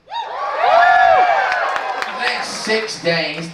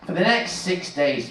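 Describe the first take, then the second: First: Very slow, much higher, long sung-out words; hammed-up, slow, high proclamation; drawn-out falsetto. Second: Said in the usual way. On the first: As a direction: stretch every word up high like an opera cry. Comic dramatic repeat of line.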